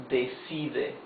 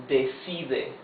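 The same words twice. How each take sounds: No difference in how they are said.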